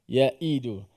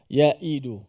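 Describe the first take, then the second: Both takes have the same delivery.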